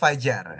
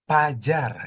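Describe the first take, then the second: First: The word begins with an F sound. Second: The word begins with a P sound. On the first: It marks an educated speaker. The speaker calls it right. "Harusnya fajar" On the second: It marks an uneducated speaker. The speaker calls it wrong. "V-nya selalu diganti jadi P"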